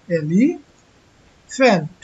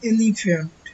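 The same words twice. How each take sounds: First: এলিফ্যান্ট very slow, each sound clear; এলিফ্যান্ট drawn out, the f sound held clearly; slow model pronunciation. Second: Said in the usual way. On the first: Shown as a demonstration. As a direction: stretch out এলিফ্যান্ট so the f is heard. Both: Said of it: "এলিফ্যান্ট যখন উচ্চারণ করতেছি".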